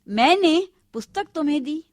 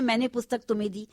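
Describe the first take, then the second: First: The word मैंने is stressed. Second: No word is given special stress. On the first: It was not I who gave it. "मैंने पर जोर है" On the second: It is a plain statement of the fact. "सीधे साधे सरल शब्दों में बोल रही हैं"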